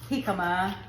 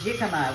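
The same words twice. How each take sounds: First: The word begins with a breathy H sound. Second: The word begins with a hard J sound. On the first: The speaker calls it right. "the J is silent, like the H" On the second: The speaker calls it wrong. "we don't say jicama"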